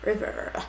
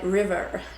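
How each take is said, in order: First: It is said in an American accent. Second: The same.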